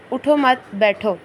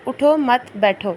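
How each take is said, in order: First: "اٹھو مت" run together, a break, then "بیٹھو"; pause after مت. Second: "اٹھو" alone, a break, then "مت بیٹھو" together; slow, breaking straight after اٹھو; pause after اٹھو. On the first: Teacher reading the first example sentence, pause after مت. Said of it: "پیچھے سے پڑھنا بھی کس طرح سے ہوتا ہے". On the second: Teacher reading the second example sentence, pause after اٹھو. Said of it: "دوسرا جملہ". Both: Shown as a demonstration.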